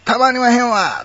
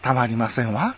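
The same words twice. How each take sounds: First: Emphatic Kansai exclamation with long wa; Kansai dialect. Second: Ladylike standard intonation with a light wa; refined standard-Japanese feminine speech. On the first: Giving the Kansai original for comparison, emphatic Kansai accent. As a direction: cry it out in broad Kansai intonation. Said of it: "これ関西弁ですけど". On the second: Turning the Kansai phrase elegant, refined standard accent. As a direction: say it genteelly, in standard women's Japanese. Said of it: "なんか上品になりますでしょ". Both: Shown as a demonstration.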